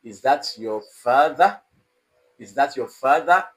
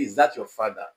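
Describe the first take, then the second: First: "Is that your father" climbing on 'father'; rising tone. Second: "Is that your father" dropping low on 'father'; falling tone. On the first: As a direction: lift the pitch clearly on 'father' to ask. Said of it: "It should end in rising tone". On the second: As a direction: let 'father' fall like a statement. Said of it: "It is wrong to say". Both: Shown as a demonstration.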